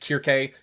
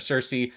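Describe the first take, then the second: First: The name begins with a hard K sound. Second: The name begins with a soft S sound. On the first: It follows the ancient Greek pronunciation. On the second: It follows the usual modern pronunciation.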